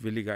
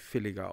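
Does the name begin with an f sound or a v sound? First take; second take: v sound; f sound. First: The name begins with a soft v sound. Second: The name begins with a sharp, almost f sound. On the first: The speaker calls it wrong. "habe ich direkt williger im Kopf" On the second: The speaker calls it right. "sie sprechen sich filliger aus. Mit so einem scharfen, fast schon F"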